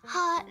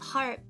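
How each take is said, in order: First: The word is said in a British accent. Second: The word is said in an American accent.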